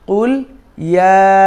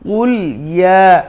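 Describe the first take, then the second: The two takes are said the same way.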